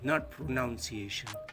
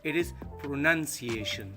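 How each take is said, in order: First: The start sounds like the word pronounce. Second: The start differs from the word pronounce. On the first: The speaker calls it wrong. "they don't make differences between pronounce and pronunciation" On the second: The speaker calls it right. "for the pronunciation we pronounce it pronunciation"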